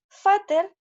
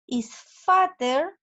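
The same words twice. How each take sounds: First: "fatter" punched high and loud, both syllables even; fatter stressed high and loud. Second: "is fatter" drawn out very slowly, stress on "fatter"; slow, stretched "fatter". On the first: Teacher showing the comparative to the class, high and loud on "fatter". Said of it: "Si fat es gordo". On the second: Teacher reading the example sentence to the class, slowly on "fatter". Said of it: "Y la oración aquí me dice". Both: Shown as a demonstration.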